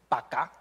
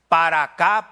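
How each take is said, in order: First: The word 'para' is shortened to 'pa'. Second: The word 'para' is said in full. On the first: The speaker calls it wrong. "eso no es español" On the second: The speaker calls it right. "para acá, para allá, no pa' acá"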